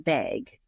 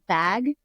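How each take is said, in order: First: The vowel is raised, sounding like 'beg'. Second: The vowel is open, as in 'bag'. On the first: This is the speaker's own old way of saying it. "and I would say beg" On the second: This is how most people in the region say it. "the this Midwest says, says bag"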